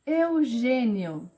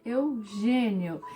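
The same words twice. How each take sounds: First: "Eugênio" slowly, closed "ê" stressed; slow careful name. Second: "Eugênio" drawn out, stressed "gê" closed; slow careful name. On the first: Teacher showing the circumflex, slow and careful. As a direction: spell it out by sound. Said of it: "tem um acento circunflexo". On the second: Teacher repeating the name for pupils, slowly. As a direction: say it slowly, syllable by syllable. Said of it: "tem um som diferente". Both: Shown as a demonstration.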